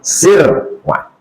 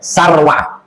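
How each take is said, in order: First: The first vowel is an i sound. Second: The first vowel is an a sound. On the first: "bikasri sin. Sinnya baris bawah" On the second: "Kalau ada yang baca baris atas boleh"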